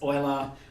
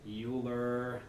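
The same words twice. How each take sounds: First: The name begins with an 'oy' sound. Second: The name begins with a 'yoo' sound. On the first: The speaker calls it right. "that's the convention and that's the way we're going to do it" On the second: The speaker calls it wrong. "people who mispronounce Euler's name"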